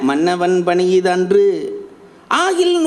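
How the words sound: A break separates the final word from the rest. "பிரிச்சு ரெண்டு விதமாக சொல்லலாம்"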